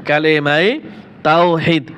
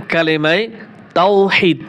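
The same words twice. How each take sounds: The two takes are said the same way.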